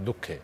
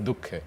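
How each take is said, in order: Both takes have the same delivery.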